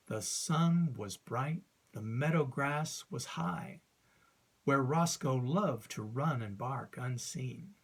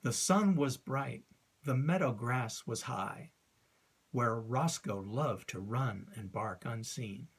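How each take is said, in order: First: "sun" and "meadow" stressed, raised and drawn out; slow, emphatic recitation. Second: Poem recitation. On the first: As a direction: hammer out the five beats slowly. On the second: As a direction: read the lines with a steady iambic beat. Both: Shown as a demonstration. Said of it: "recite a line from ... to illustrate".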